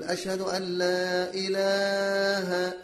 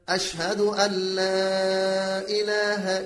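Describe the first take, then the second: First: The vowel in 'ilah' is drawn out long. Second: The vowel in 'ilah' has normal length. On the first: The speaker calls it wrong. "بعض الناس يمد كلمة إله" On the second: The speaker calls it right. "إنما الصحيح ماذا؟"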